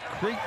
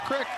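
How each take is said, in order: First: The vowel is long, like 'creek'. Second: The vowel is short, like 'crick'. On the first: "is it Creek or Crick?" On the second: "they were very adamant. It's Johnson Crick"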